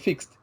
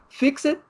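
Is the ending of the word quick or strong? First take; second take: quick; strong. First: The final ending is very short and quick. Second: The final ending is pronounced strongly and separately. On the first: The thing has already been fixed. The speaker calls it right. "esse E D tem que ser muito rápido" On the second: The listener is being ordered to fix it. The speaker calls it wrong. "com essa pronúncia forte no final"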